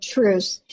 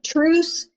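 First: Low, settled "Truce." with a falling close; calm accepting truce. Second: Lifted, rising "Truce." offered up high; Patrick's offer of truce. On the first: Fan answers Patrick Ewing's truce, low and settled. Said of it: "I held my hand up and I said". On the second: Patrick Ewing offers a courtside truce, rising, questioning. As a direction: ask "Truce." with a questioning upward lift. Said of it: "held his hand way up in the air and said". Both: Retold or imitated.

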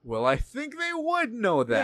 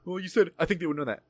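First: Slow, high-pitched disbelief; exasperated, stretched-out emphasis; incredulous retort. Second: Slightly raised, matter-of-fact recital; lightly voiced accusation at normal volume; administrator quoting him back. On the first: Retold or imitated. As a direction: drag it out as if it's painfully obvious. Replaying his incredulous reply. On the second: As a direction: report his words back as the administrator. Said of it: "when she said that".

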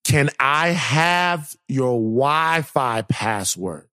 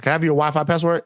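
First: Very slow, drawn-out mock request; imitating neighbor's request. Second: Rattled off fast; quick repeated request. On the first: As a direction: stretch every word of the question. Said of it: "she was a foreign lady". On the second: Retold or imitated. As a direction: run the question together quickly.

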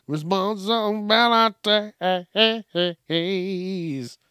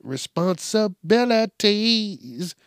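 First: Very slow, stretched out word; slow mocking drawl. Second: Drawn out. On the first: Comedian mocking kids who dodge chores, stretched out slowly. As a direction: drag Responsibilities out syllable by syllable. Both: Shown as a demonstration.

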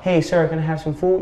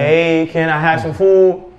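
First: Politely asking, no push in the voice; humble request. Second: Slow, drawn-out plea for food; more insistent request. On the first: Hungry man first asks a stranger for food, humble. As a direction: ask meekly, at an unforced level. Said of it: "You're gonna be humble". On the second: Hungry man's asking progresses toward knocking, insistent. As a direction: press the request, stretching the words. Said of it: "it's gonna progress". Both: Acted.

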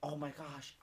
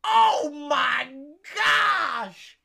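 First: Small, soft, lower voice; retold meek apology. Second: Loud, high mock wail; retold anguished wail. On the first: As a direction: say it softly as the embarrassed kid. Kid apologises to stall man. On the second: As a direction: cry out as the man hearing the spoiler from a stall. Man in stall hears spoiler.

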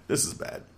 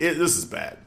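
First: Breathy whisper under the breath; whispered repeat. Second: Said in the usual way. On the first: Real, not acted. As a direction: drop to a whisper in dismay. Dismayed repeat after bad news.

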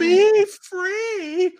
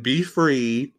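First: High, airy, slowed mock-noble be free; mock heroic. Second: Said in the usual way. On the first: Mocking the heroine freeing the little girl, high hammed-up noble voice. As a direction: ham up the noble heroine line. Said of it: "tells her to run away and be free".

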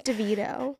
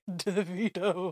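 First: DeVito said as də-VEE-doh; DeVito, long stressed VEE; mistaken pronunciation. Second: Davido said slowly, syllable by syllable; slow, softer, careful Davido; corrected pronunciation. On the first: Retold or imitated. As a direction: say DeVito with the middle syllable stressed. Insisting on a mistaken name. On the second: Shown as a demonstration. Correcting the mispronounced name.

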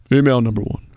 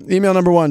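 First: Put-on announcer-style mail voice. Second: Higher, louder announcement of the email. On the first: Shown as a demonstration. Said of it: "let me put my mail voice on". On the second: Real, not acted. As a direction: call it out higher and louder to open the reading. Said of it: "that's not my mail voice".

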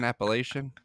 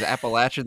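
First: "Appalachian" ending in LAY-shun; lay-shun pronunciation. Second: "Appalachian" said the country way, app-uh-LATCH-un; country pronunciation. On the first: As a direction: pronounce "Appalachian" with a long A, then SH. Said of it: "way of saying Appalachian". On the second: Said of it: "the country way of saying". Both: Shown as a demonstration.

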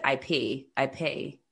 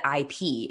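First: "I P" ending in an AY sound, lower. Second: Said in the usual way. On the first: Shown as a demonstration. Imitating partner talking intellectual property, final E of "I P" turned to AY. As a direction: say "I P" as "I pay", Philly style. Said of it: "they make it sound like A". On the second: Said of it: "and I said I P".

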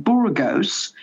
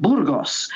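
First: "Burgos" with a long "oh" in the ending; "Burgos" as a tin-eared tourist says it, ending in "gohs"; anglicised mispronunciation. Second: "Burgos" with a short, crisp "oss" ending; "Burgos" as in Spanish, ending in "goss" rather than "gohs"; Spanish pronunciation. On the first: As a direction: say "Burgos" like BURR-gohs, English-style. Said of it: "a really tin ear for accent". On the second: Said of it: "when it's called". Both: Retold or imitated.

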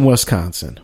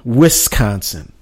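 First: Said in the usual way. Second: "Wisconsin" slowed, with a clear short-i WIS at the start; corrected local pronunciation. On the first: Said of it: "as I was told by my". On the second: Shown as a demonstration. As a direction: say "Wisconsin" carefully as WIS-consin. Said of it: "Twitter bud Shannon to say".

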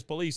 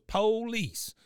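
First: Said in the usual way. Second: "Police" as POH-leece, high and drawn out; Cotton's pronunciation. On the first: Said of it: "not only says police". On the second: Retold or imitated. Co-host shows how Cotton says it, "Police" as POH-leece. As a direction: hit a long first syllable in "Police". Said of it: "he not only says police, he goes".

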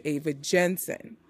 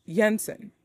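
First: "Jensen" said the American way, with a hard J as in "jam"; American pronunciation. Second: "Jensen" with a Y sound at the start, like "Yensen"; Scandinavian pronunciation. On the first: Shown as a demonstration. Reviewer showing the American way to say the name, hard J. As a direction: say "Ava Jensen" with an English J sound. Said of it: "as Americans, we would say". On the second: Retold or imitated. Reviewer imitating the actor's Scandinavian "Jensen", Y sound. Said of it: "say her last name in a Scandinavian way".

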